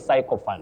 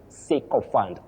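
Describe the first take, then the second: First: The first vowel is a gliding 'eye' sound. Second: The first vowel is a short 'i' sound. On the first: The speaker calls it wrong. "Many people say sycophant, but we don't have that glide I" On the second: The speaker calls it right. "you say sycophant"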